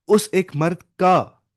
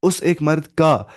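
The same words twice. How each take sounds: First: Each word spaced out slowly for the class; teacher stressing उस एक मर्द का slowly, word by word; slow emphasis. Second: Repeated slowly, उस एक मर्द का each word weighted; drawn-out उस एक मर्द का for clarity. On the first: Teacher explaining to students, slow stressed phrase. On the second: Teacher repeating the meaning for students, slow and stressed. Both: Shown as a demonstration. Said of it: "समझिए difference क्या है".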